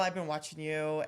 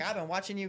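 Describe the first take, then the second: First: It is said in the speaker's ordinary accent. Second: It is said in a Southern American accent.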